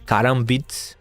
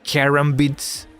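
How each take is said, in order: First: The word is said without an English accent. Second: The word is said with an English accent. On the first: "I'm not sure if I'm pronouncing them correctly" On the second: "maybe with English accent would be"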